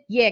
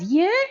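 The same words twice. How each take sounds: First: It sounds flat and disinterested. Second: It sounds surprised.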